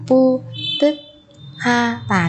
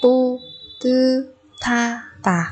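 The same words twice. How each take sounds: First: "pu tức ha tà" with separate "ha"; wrong unlinked reading. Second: "Pu tư tha tà" slowly, with aspirated "tha"; correct linked reading. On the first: Teacher warning learners, showing the unlinked "pu tức ha tà". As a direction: close "tức", then start "ha" separately. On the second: Teacher showing learners the sound change, slow separated syllables. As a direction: open "tư", then puff into "tha". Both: Shown as a demonstration. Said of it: "chứ không phải là".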